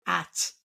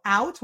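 First: "at", only the first vowel of the ow glide; simplified diphthong. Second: Said in the usual way. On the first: Shown as a demonstration. Therapist showing a child's simplification, diphthong reduced to "at". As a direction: cut the glide short to "at", softer. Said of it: "So out will become". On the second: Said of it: "They simplify it to the first vowel".

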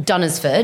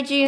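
First: "Dunnersford" said as DUN-ners-ford, with a full middle syllable; wrong pronunciation. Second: "Dunesford" as DUNES-ford, two syllables; corrected pronunciation. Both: Shown as a demonstration. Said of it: "Oh, whoops".

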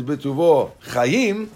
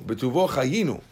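First: "chayim" drawn out slowly, stressed at the end; slow, deliberate chayim. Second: Said in the usual way. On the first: Shown as a demonstration. Rabbi showing students the wrong blessing wording, slow and deliberate. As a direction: spell out "Bituvo chayim" word by word, leaning on "chayim". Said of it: "harei ze bur". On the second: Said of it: "but if it says".

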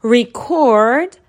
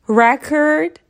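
First: Record said re-CORD, second syllable loud; Record as a verb, stress at the end. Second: Record said REC-ord, first syllable stressed; Record as a noun, stress up front. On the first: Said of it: "ورب". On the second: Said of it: "که نونه". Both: Shown as a demonstration.

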